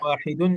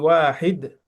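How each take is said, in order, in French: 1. Le mot finit avec la désinence -un prononcée. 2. Le mot finit sans -un. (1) "Mais tu peux" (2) "Tu dis wahid, après tu continues"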